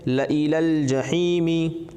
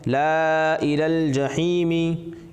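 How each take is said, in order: First: The first vowel is short, alif silent. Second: The first vowel is long, alif sounded. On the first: "यहाँ पर भी अलिफ साइलेंट है" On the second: "लिखा हुआ है"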